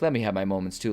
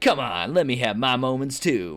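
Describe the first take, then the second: First: It is said softly, like a lover. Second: It is said in a campy, punchy way.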